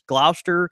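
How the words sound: It is said in an American Southern pronunciation.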